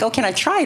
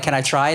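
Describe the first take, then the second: First: It is asked innocently and sincerely. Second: It is asked knowingly, with sarcastic doubt.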